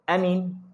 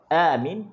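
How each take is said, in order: First: Both vowels are said short. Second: The first vowel is long, the second short. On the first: It means safety. "Kalau a tu pendek" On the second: It means asking for help and security. "Kalau a tu panjang, min tu pendek"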